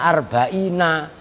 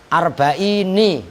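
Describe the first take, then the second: First: The word ends with an 'a' vowel. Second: The word ends with an 'i' vowel. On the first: The normal regular form. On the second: An irregular poetic form that breaks the usual rule. "dibaca kasroh"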